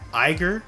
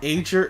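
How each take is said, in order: First: The first vowel sounds like 'eye'. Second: The first vowel sounds like 'ay' in eight. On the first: The speaker calls it wrong. "I've been saying Iger" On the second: The speaker calls it right. "supposed to be eight"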